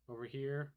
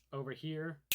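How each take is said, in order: Both takes have the same delivery.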